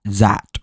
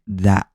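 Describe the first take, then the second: First: "zat" with a buzzing z in place of th; "zat" with z replacing the th; German z for th. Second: Said in the usual way. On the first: Shown as a demonstration. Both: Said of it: "They use words like".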